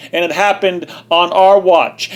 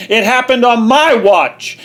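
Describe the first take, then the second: First: Our leaned on, falling at the end; stress on our. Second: "my" hit harder and a bit higher; stress on my. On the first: Ranting vlogger blaming everyone, stress on our. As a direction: land on "our" and let watch fall. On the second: Ranting vlogger taking blame himself, punching my. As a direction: punch the word "my". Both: Real, not acted.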